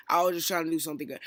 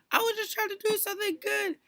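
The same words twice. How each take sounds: First: Said in the usual way. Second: Very high put-on mimicking voice; mock his excuse in a squeaky high pitch; exaggerated high-pitched imitation; mocking whine.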